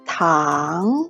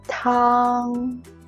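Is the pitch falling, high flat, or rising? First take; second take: rising; high flat. First: The pitch rises from mid to high. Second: The pitch stays high and level. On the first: "a rising tone" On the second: "the first tone, high and flat"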